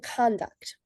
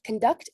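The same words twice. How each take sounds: First: "conduct" stressed on its first syllable, CONduct; strong, full first syllable in "conduct", lighter second. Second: "conduct" stressed on its second syllable, conDUCT; weak first syllable, strong second in "conduct". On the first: Teacher contrasting word stress, "conduct" with first-syllable stress. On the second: Teacher contrasting word stress, "conduct" with second-syllable stress. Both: Shown as a demonstration. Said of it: "an example of how word stress".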